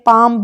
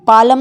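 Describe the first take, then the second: First: No l is heard at all. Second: An l is heard with an extra vowel. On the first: The speaker calls it right. "पाम पढ़ते हैं हम इसको" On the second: The speaker calls it wrong. "पालम नहीं पढ़ते"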